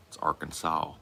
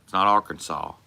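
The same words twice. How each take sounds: First: "Arkansas" ending in a rounded "aw", softer. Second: "Arkansas" ending in a plain vowel, no W; Arkansas without the W. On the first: Correcting chat on the state's name, "Arkansas" with a W. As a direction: put a W on the end of "Arkansas". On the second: Showing chat how not to say it, "Arkansas" with no W. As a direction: say "Arkansas" without any W sound. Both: Shown as a demonstration. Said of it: "put a W on Arkansas".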